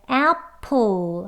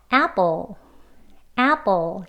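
First: Apple with a puffed 프 p; wrong aspirated p. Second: Apple with a tense 쁘 p; correct tense p. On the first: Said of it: "apple 하지 않고요". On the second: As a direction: show the right way, p unaspirated. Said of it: "이렇게 발음합니다". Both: Shown as a demonstration.

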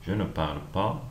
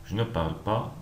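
The two takes are said the same way.

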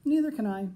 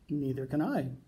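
First: Higher and louder mother's line. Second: Said in the usual way. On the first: A narrator's reading. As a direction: chime in brightly after the father. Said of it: "said Franklin's mother". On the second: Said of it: "said Franklin's father".

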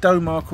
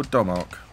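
First: "Domark" opening like dough; long O in Domark. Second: "Domark" opening like Dom; short O in Domark. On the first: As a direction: say "Domark" as DOH-mark, offered as one option. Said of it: "I've always pronounced it Domark". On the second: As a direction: say "Domark" as DOM-ark, the other option. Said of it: "however you say it". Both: Shown as a demonstration.

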